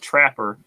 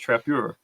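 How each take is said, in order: First: It is said like the English word trapper. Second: It is said with a French-style ending. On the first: The speaker calls it wrong. "It's not trapper" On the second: The speaker calls it right. "It's like French"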